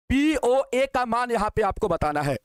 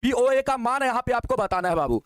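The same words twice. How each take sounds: First: Slow, deliberate restatement for the class; slower repeat. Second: Said in the usual way. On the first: Shown as a demonstration. Teacher repeats the question slowly for students.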